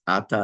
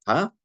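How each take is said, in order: First: "ata" stressed on the opening syllable, A-ta; stress on first syllable. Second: "ata" stressed on the last syllable, a-TA; stress on second syllable. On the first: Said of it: "the right way to pronounce this". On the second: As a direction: hit the final syllable of "ata". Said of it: "and not". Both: Shown as a demonstration.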